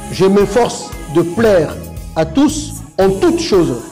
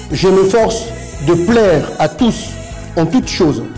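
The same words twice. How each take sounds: The two takes are said the same way.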